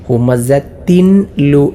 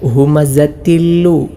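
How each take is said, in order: First: A clear n is said before the l. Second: The n merges into a doubled l. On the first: The speaker calls it wrong. "എന്നല്ല" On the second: The speaker calls it right. "ഇങ്ങനെയാണ് ഓതേണ്ടത്"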